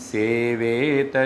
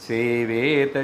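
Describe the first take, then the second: Both takes have the same delivery.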